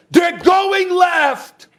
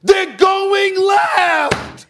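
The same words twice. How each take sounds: First: Mild mock yell. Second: Slow, drawn-out yelled warning; mock crowd yell. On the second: Host imitating fans yelling a warning to defenders. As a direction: stretch it out like fans hollering from the stands. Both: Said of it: "people are screaming at them".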